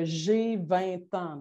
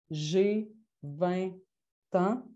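First: "J'ai vingt ans" said slowly, syllable by syllable; slow demo sentence. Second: "J'ai vingt" then a pause before "ans", one syllable per beat. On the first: (« J'ai vingt ans » dicté lentement) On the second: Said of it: "je traçais trois traits au tableau". (« J'ai vingt ans » avec une pause avant « ans ») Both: Shown as a demonstration.

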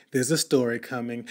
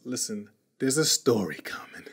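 First: Said in the usual way. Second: Hushed teasing whisper. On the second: Acted. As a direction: lean in and whisper it.

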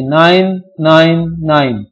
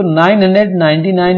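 First: nine nine nine slowly, each nine separate; nine nine nine as three separate slow digits, not one number. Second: nine hundred ninety nine read as one whole number; nine hundred ninety nine read as nine hundred ninety-nine; wrong reading. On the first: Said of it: "इसको अलग-अलग बोलेंगे". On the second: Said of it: "नहीं बोलेंगे". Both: Shown as a demonstration.

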